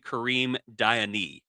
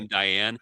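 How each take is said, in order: First: The surname is said with an accented e. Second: The surname is said the plain anglicized way. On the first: The speaker calls it right. "It's actually ... he's got the accent over the e" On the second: The speaker calls it wrong. "I thought it was"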